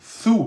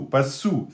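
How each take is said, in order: First: It begins with a th sound, tongue out. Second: It begins with a plain s sound. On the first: The speaker calls it right. "Il faut sortir la langue" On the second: The speaker calls it wrong.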